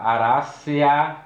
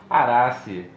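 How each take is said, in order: First: The word ends with an added 'a' sound. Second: The word ends on an 'e' sound. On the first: The speaker calls it wrong. "um erro, um equívoco quando a gente fala Aracea, né? E pronuncia aquele A que está no finalzinho" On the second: The speaker calls it right. "mas em latim, Arace, tá, tá bem adequado"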